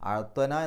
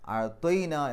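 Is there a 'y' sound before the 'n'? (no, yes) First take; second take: no; yes. First: The word has no 'y' sound before 'n'. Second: The word has a 'y' sound before 'n'. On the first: The speaker calls it wrong. "അഴത്വന എന്നല്ല" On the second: The speaker calls it right. "അഴത്വൈന എന്നാ വരിക"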